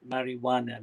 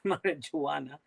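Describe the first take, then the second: First: The J is silent, not pronounced as J. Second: The J is pronounced as a J sound. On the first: The speaker calls it right. "the English pronunciation is marijuana. ... The J is like a silent" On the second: The speaker calls it wrong. "you keep saying marijuana"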